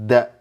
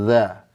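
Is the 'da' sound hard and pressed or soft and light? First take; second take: hard; soft. First: The tongue presses hard, giving a dense sound. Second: The tongue touches lightly, giving a soft sound. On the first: The speaker calls it wrong. "kalau ditekan jadi da" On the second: The speaker calls it right. "supaya lembut cukup menyentuh sedikit"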